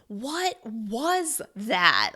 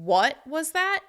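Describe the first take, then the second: First: Every word is stressed separately. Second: The word 'what' gets extra stress. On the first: The listener is shocked and cannot believe it. "you're going to stress each word individually" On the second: The listener heard something a bit rude. "you're bringing extra stress to the word what"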